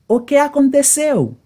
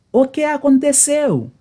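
No difference in how they are said.

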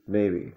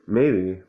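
First: Said in the usual way. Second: Emphatic maybe. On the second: Shown as a demonstration.

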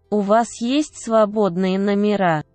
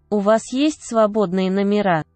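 No difference in how they are said.

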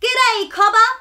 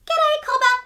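First: High, loud friendly rat call; a cheery little rat hollering hello. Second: Very high, tiny chorus of ants; tiny voices. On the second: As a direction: squeak it like a hundred tiny ants. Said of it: "came a hundred tiny voices from down below". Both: Acted.

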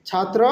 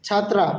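First: "ছাত্র" ending in a short rounded vowel; short final vowel on "ছাত্র", chhaatro; masculine Nepali form. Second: "ছাত্রা" ending in open "aa"; chhaat-raa, open final vowel on "ছাত্রা"; feminine Nepali form. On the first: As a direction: keep the end of "ছাত্র" short, no "aa". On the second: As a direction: open up the last syllable of "ছাত্রা". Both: Shown as a demonstration. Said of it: "ওইটাতে একটু different আছে".

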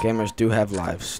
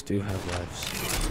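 First: Said in the usual way. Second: Low, very slow, drawn-out "Do have lives"; dramatic low echo. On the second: Shown as a demonstration. Mocking his own claim to viewers, in a low slow drawl.

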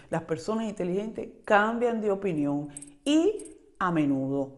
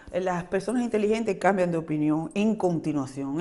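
First: Deliberate, underlined repeat of "y a menudo", voice dropping at the end; slow emphatic restatement. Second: Said in the usual way. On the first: Shown as a demonstration. Reminding viewers, stressing the lesson slowly. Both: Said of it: "Recuérdense eso".

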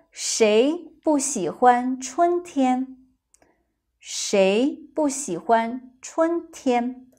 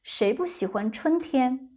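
First: Slow. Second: At a quicker, natural pace; faster. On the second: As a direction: say it faster this time. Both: Shown as a demonstration.

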